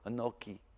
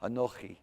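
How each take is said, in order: First: The middle consonant is a hard k sound. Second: The middle consonant is a raspy ch sound. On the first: "Just go anoki" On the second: "Try to get a ch"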